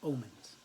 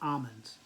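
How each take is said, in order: First: The word begins with an 'oh' sound. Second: The word begins with an 'al' sound. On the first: The speaker calls it right. "It's omens" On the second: The speaker calls it wrong. "It's not almonds"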